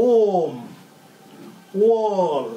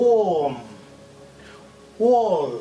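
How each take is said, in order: The two takes are said the same way.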